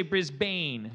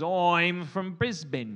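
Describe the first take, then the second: First: "Brisbane" with a full "bane" ending; wrong pronunciation. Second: Slow, loud Aussie "Oi'm from Brisbn"; mock Australian accent. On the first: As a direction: say "Brisbane" as "Briz-BAYN", like an outsider. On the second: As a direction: show off a stretched Australian accent. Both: Shown as a demonstration. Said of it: "Notice I didn't say Brisbane".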